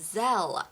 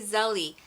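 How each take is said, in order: First: The word ends with an 'l' sound. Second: The word ends with an 'ee' vowel. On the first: The speaker calls it right. "The correct way is Zelle" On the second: The speaker calls it wrong. "I keep wanting to say Zelly"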